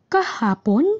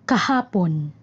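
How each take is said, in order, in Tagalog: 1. Parang nag-aalinlangan at nagtatanong. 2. Parang simpleng pahayag lang.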